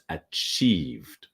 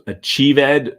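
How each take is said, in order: First: The E in the ending is silent. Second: The E in the ending is pronounced. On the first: The speaker calls it right. "achieved with the silent E" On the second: The speaker calls it wrong. "So achieved does not exist"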